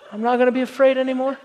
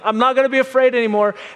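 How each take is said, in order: First: It is said quietly and timidly. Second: It is said loudly, almost yelled.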